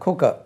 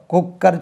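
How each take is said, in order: First: "குக்கர்" as short khu-ka, no r; correct pronunciation. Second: "குக்கர்" as kuk-kar, heavy double k; wrong pronunciation. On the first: Teacher giving the right form, "குக்கர்" as khu-ka. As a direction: drop the final r of "குக்கர்". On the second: Teacher showing what not to say, "குக்கர்" as kuk-kar. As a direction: sound the final r of "குக்கர்". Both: Shown as a demonstration. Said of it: "குக்கர் சொல்லக்கூடாது".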